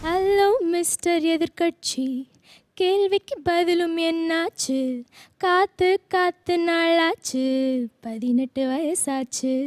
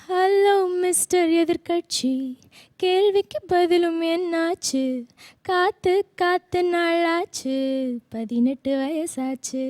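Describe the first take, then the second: No difference in how they are said.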